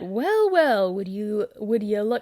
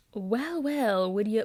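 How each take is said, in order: First: Attempted Butcher accent. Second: Said in the usual way. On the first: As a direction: try Butcher's British accent, then falter. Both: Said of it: "just imagine this being read in, like, Butcher's accent".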